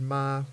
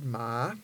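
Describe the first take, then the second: First: The word is said on a level mid tone. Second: The word is said on a rising tone. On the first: It means to come. "with the mid-tone means to come" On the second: It is a colloquial word for dog. "with the rising tone is colloquial for dog"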